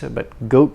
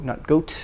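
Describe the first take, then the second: First: The final T is held, not released. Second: The final T is audibly released. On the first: The speaker calls it right. "the T is not released" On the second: The speaker calls it wrong.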